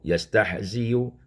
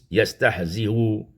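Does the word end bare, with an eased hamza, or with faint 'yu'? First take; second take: faint yu; eased hamza. First: It ends with 'y' and a faint 'u'. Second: It ends with a softened hamza and faint vowel. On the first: "dibacakan dengan rum" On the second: "mentashilkan hamzah dengan rum"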